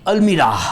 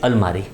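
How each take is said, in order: First: The word is said as al-mee-ra, ending in 'ra'. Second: The word is said as al-maa-ri, ending in 'ri'. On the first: This reads the word the way it is spelled. "Dubai में होंगे ऐसा feel होएगा" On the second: This is how the word is actually pronounced. "उसका pronunciation क्या होता है? It is अलमारी।"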